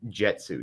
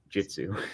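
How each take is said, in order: First: The first vowel sounds like the one in 'jet'. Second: The first vowel sounds like the one in 'jit'. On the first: The speaker calls it wrong. "You said Jetsu, not Jitsu. / you're saying jet, not jit" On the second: The speaker calls it right. "not Jitsu / J I T, not J E T"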